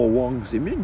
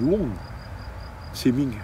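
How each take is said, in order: First: The name is said in its pinyin form. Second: The name is said in its Hong Kong form. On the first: "il s'appelle pas Wang Zeming" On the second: "À Hong Kong, mon prof, il s'appelle Wong Zeming"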